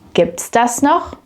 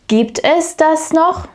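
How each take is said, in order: First: Es is reduced to an s on the verb. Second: Es is said as a separate full word.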